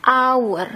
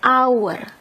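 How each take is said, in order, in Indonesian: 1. Kata ini langsung dimulai dengan bunyi vokal. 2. Kata ini langsung dimulai dengan bunyi vokal.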